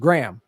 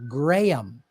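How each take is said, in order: First: The name is said as one syllable. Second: The name is said as two syllables. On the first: The speaker calls it wrong. "you're mispronouncing my name" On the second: The speaker calls it right. "my name has two syllables"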